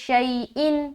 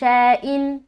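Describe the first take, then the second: First: The first vowel glides clearly like Arabic ay. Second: The first vowel is a plain, Urdu-like e sound. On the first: The speaker calls it right. "मारूफ लिहाज से पढ़ते हैं" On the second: The speaker calls it wrong. "ये मजहूल हो गया"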